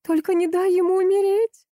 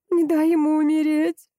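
First: Desperate plea. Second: A mother crying out over her dying son; desperate exclamation. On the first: Wife begs him not to let their son die. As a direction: beg with everything you have. Wife pleads over dying child. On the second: Wife cries out, begging him to save the child. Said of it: "воскликнула Митцы". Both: A narrator's reading.

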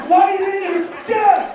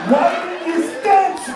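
First: Slower, louder and higher yell; shouted advice. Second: Slow, loud, higher yell; shouted advice. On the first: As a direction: bellow it even harder. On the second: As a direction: bellow it across a room. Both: Acted. Yelling advice at president.

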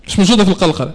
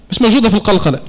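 No difference in how they are said.

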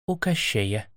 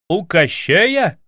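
First: Much softer, low admission; grim quiet reply. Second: Grieved outcry. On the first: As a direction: drop it quietly, reluctant. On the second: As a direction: cry it out in dismay. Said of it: "вскричал Иван горестно". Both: A narrator's reading.

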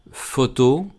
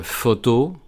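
First: Photo read as a French word, first O open, last O closed. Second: Photo slowly in French, stress on the last syllable, first O open; slow photo, stress falling on the end. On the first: Teacher reads a French example word, careful French. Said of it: "Y con una O normal". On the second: Teacher explains the open first O in photo, slow French. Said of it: "recae en la última sílaba". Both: Shown as a demonstration.

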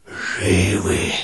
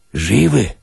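First: A faint hushed reply, softer; tiny voices whispering back from inside the skull; barely-there whisper. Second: Said in the usual way. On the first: Acted. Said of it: "ответили они шёпотом".

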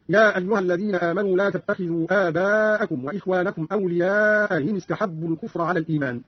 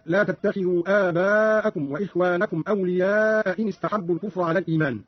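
First: أولياء إن with the second hamza eased between hamza and y; softened hamza. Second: Said in the usual way. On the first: Shown as a demonstration. Teacher demonstrates Qalun, softening the hamza of إن after أولياء. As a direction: glide from أولياء into إن without a second catch. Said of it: "بتسهيل الهمزة بين بين". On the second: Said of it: "قرأ قالون بتسهيل الهمزة بين بين".

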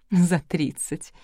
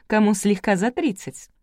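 First: Slow, lightly amused echo; tittering. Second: Said in the usual way. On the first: A narrator's reading. Bride echoing a kind remark, mildly tittering. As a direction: draw it out with a touch of a giggle. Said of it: "хихикнула Галина".

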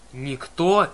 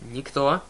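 First: Loud, bellowed name in rage; furious yell. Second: Shouting. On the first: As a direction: roar it back in fury. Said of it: "завопил в ответ Полифем". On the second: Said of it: "закричала Аннабет". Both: A narrator's reading.

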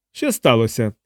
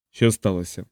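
First: Mildly querulous key keeper. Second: Said in the usual way. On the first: A narrator's reading. Key keeper demanding an explanation in the corridor, querulous. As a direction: ask it with a touch of grumbling. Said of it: "сварливо запитала охорониця ключів".

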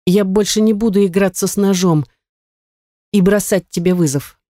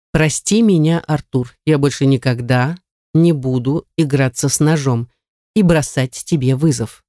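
First: Higher, in a single breath, defeated; rattled off. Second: Captor dictating. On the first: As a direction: gabble it out to get it over with. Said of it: "протараторила я на одном дыхании". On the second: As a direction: spell it out for her to repeat. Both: Acted.

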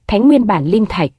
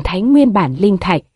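First: Mildly taken aback, puzzled echo; stunned question. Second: Said in the usual way. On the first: A narrator's reading. Stunned Taoist echoing Tần Dương's request, mildly surprised. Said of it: "Lộn Xộn đạo nhân ngẩn người hỏi". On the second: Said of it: "Hắn cười nói".

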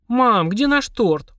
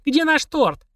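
First: Slow and high, leaning on наш; slow bewildered question. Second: High yell, stress on наш; yelling in chorus. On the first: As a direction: drag out наш in disbelief. Stunned at the empty plate. (медленно, растерянно) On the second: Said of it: "хором заорали". (хором заорать) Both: Acted.

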